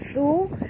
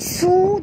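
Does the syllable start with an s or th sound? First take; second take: th; s. First: The syllable starts with a th sound. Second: The syllable starts with an s sound. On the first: The speaker calls it right. "tapi thu" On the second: The speaker calls it wrong. "thu bukan su"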